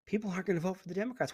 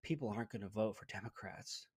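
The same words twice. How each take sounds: First: Said in the usual way. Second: Much lower and softer, a hushed mock-frightened pundit; mock scared. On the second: Imitating a scared leftist pundit, hushed and mock-frightened. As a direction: whisper it like a stunned talking head. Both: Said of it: "flabbergasted and almost scared".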